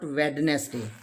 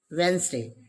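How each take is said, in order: First: "Wednesday" as Wed-nes-day, three syllables; D wrongly sounded. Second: "Wednesday" as Wens-day, two syllables; silent D. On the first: Teacher shows the mistake to avoid, Wednesday with sounded D. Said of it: "not Wednesday". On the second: Teacher models the correct word, Wednesday with silent D. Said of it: "D is silent". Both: Shown as a demonstration.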